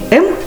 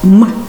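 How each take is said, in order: First: It is said as the full letter name with a vowel. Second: It is said as a bare consonant sound alone. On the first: The speaker calls it wrong. "не название букв, а звуки" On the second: The speaker calls it right. "а звуки, которые они обозначают"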